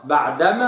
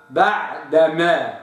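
First: بعدما said quickly as the mistake; wrong reading. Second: بعدما said slowly and clearly; correct reading. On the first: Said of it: "خطأ". (بعدما الخاطئة) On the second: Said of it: "الصواب". (بعدما الصحيحة ببطء) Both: Shown as a demonstration.

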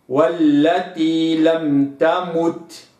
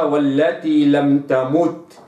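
First: والتي لم تمت slow, clean rounded u in تمت; correct recitation. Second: والتي لم تمت with the damma tilted, lax; wrong reading. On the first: Teacher models verse for students, slow and exact. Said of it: "والتي لم تمت هكذا". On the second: Teacher shows the mistake to avoid, tilted vowel. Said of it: "لا أقرأها والتي لم تمت". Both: Shown as a demonstration.

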